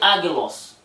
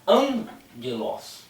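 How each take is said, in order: First: It is said without an n before g. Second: It is said with an n before g. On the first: The speaker calls it wrong. "você não vai ler agelos" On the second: The speaker calls it right. "o primeiro gama ele vai ter som de N"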